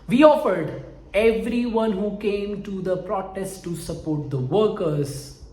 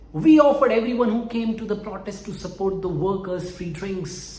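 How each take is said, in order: First: It is read slowly. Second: It is read at normal speed.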